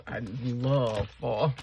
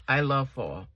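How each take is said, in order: First: LOVE stretched long and slow; drawn-out LOVE. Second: LOVE said firmly, at normal pace; firmer restatement. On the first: Vlogger gushing about the season, LOVE stretched out. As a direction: linger on the word LOVE. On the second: Vlogger rephrasing her feeling about fall, firm LOVE. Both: Real, not acted. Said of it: "let me rephrase that".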